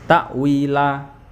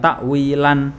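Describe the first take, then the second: First: The word ends with a long vowel. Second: The word ends with an n sound. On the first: The speaker calls it right. "dibaca panjang dua harokat" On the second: The speaker calls it wrong. "Jadi bukan takwilan, bukan"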